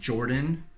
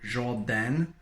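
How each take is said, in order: First: The name is said with English sounds. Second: The name is said with French sounds. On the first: "my own name from Jordan" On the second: "say your own name kind of with the French accent"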